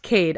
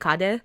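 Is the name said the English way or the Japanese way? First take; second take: English; Japanese. First: The name is said as one English-style syllable. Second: The name is said with Japanese-style syllables. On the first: The speaker calls it right. "I think it's pronounced Cade" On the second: The speaker calls it wrong. "it's a Japanese name, Kade"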